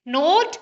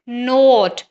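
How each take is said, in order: First: नोट with a short o, as in "not", pitched higher; short vowel. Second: नोट with a long drawn-out o; long vowel. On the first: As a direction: lift नोट and keep it brief. (नोट छोटी आवाज़ में, जैसे नॉट) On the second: (नोट में लंबा ओ खींचकर) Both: Shown as a demonstration. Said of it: "ये minimal pairs इस तरह के हैं".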